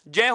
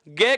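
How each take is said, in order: First: It begins with a j sound, like 'jña'. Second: It begins with a g sound, like 'gya'. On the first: This is the linguistically correct pronunciation. The speaker calls it right. "वास्तविक जो उच्चारण भाषा विज्ञान की दृष्टि से" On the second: This is the common everyday pronunciation. The speaker calls it wrong. "भ्रमवश क्या करते हैं, गय कर देते हैं"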